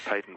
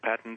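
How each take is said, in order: First: The word is said with a non-American pronunciation. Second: The word is said with an American pronunciation. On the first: "But I do try to say patent when I think about it" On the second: "our American friends, you say patent, which I've sort of adopted these days"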